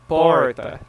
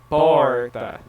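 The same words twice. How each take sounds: First: The R sounds like an English R. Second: The same.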